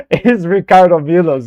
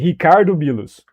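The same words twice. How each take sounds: First: Ricardo with an English R; English pronunciation. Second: Ricardo with a throaty H for the R; Brazilian pronunciation. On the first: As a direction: say Ricardo as an English speaker would, hard English R. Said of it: "I'm pronouncing his name wrong". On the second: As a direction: open Ricardo on a breathy H sound, Brazilian style. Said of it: "It's actually". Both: Shown as a demonstration.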